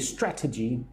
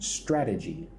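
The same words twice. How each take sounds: First: The T is a crisp, clear T sound. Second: The T is softened to sound like a D. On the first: "I don't say strategy" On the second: "I will say the T soft, like a D"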